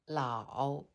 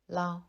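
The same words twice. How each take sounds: First: The syllable is said with a dipping third tone. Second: The syllable is said lightly with a neutral tone. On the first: "le premier caractère se prononce au troisième ton" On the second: "le deuxième caractère se prononce au ton neutre"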